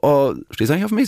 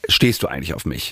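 First: The question sounds friendly and not annoyed. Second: The question sounds annoyed and impatient.

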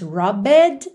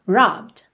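First: The ending is voiced as a separate syllable. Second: The b runs straight into the final d. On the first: The speaker calls it wrong. "você não diz robbed" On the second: The speaker calls it right. "e sim robbed"

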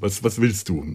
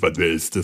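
First: The question sounds warm and friendly. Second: The question sounds curt and rude. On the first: "also freundlich" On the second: "auch nicht irgendwie pampig"

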